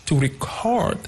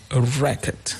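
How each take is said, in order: First: Record said as re-CORD; verb stress. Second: Record said as REC-ord; noun stress. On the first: Teacher summing up the rule, second-syllable stress. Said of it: "placed on the second syllable". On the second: Teacher summing up the rule, first-syllable stress. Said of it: "on the first syllable". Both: Shown as a demonstration.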